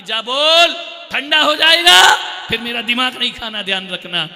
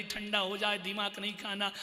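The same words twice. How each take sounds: First: Higher, loud scolding shout; mother shouting at the child; angry mother. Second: Softer, meek retelling of the message; timid child relaying. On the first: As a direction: yell a threat about the food going cold. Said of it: "mummy कहती". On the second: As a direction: pass it on quietly. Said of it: "बोलता है, mummy कह रही". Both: Retold or imitated.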